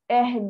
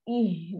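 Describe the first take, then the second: First: The vowel is an open 'eh' sound. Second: The vowel is a close 'ee' sound. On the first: The speaker calls it wrong. "Jangan eh" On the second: The speaker calls it right. "Ha, baru betul"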